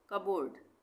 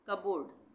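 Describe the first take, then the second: Both takes have the same delivery.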